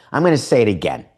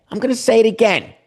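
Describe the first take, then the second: First: Said in the usual way. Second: \"I'm gonna say it again\" pitched high and quick; insistent high-pitched repeat; emphatic repeat. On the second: Shown as a demonstration.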